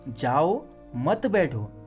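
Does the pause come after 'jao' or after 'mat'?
jao. There is a pause right after 'jao'. Go away, do not sit. "तुम जाओ जाओ अब बैठो मत"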